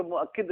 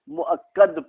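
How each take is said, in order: First: "मुअक्किद" में क के बाद इ, मुअक्-किद; "मुअक्किद" ऊँची आवाज़ में, ग़लत रूप की मिसाल की तरह; ग़लत उच्चारण. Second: "मुअक्कद" में क से पहले अ, मुअक्-कद; "मुअक्कद" को ज़बर से पढ़ो, मुअक्-कद; सही उच्चारण. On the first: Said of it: "मुअक्किद नहीं पढ़ेंगे". ("मुअक्किद" ग़लत तलफ़्फ़ुज़, आख़िर में किद) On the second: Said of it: "अब यहाँ पर ये आप मुअक्कद पढ़ेंगे". ("मुअक्कद" का सही तलफ़्फ़ुज़, आख़िर में कद) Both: Shown as a demonstration.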